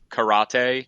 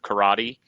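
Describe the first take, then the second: First: It is pronounced with Japanese-style sounds. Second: It is pronounced with usual English sounds. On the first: "more like the Japanese karate" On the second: "instead of karate"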